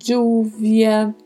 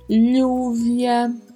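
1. O duplo L soa como dj. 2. O duplo L soa como lh. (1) "um som de D com J" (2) "um som de LH"

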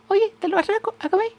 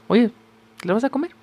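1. Se dice con una voz más aguda e infantil. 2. Se dice con la voz normal de adulto del hablante.

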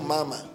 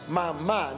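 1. El acento está en la primera sílaba. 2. El acento está en la última sílaba. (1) "no dijo mamá" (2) "es una palabra aguda porque la tilde la lleva a la última sílaba"

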